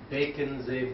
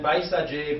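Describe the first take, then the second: First: It is said with the Tibetan modified pronunciation. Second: It is said with the original Sanskrit pronunciation. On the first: "Baconze is Tibetan uh, modification of the pronunciation" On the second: "the original Sanskrit, which is Baisaje"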